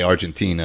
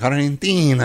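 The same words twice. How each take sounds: First: It is said with a plain English accent. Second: It is said with an exaggerated Spanish accent. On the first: The speaker calls it right. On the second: The speaker calls it wrong. "some people be like"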